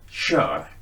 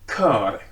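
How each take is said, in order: First: The word begins with a soft sound. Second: The word begins with a hard k sound. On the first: This is what the spelling rule would predict. "vi egentligen borde säga kör" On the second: This is how people actually say it. "Vi säger kör"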